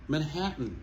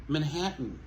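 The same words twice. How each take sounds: Both takes have the same delivery.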